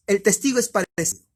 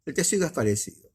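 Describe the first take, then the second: First: El testigo es parecido, higher and louder; a lifted, emphatic statement; raised emphasis. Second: Said in the usual way. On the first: Real, not acted. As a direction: announce the comparison with force.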